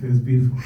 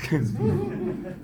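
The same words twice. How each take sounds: First: Said in the usual way. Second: Laughing squeak. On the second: Real, not acted.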